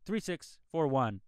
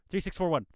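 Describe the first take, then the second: First: It is said slowly. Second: It is said fast.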